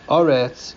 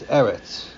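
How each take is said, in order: First: The word is read in its end-of-verse form. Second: The word is read in its ordinary form. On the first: The word stands at the end of a verse. "But at the end of a pasuk, you would read it" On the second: The word stands in the middle of a verse. "If it's a middle of a pasuk, then you read it"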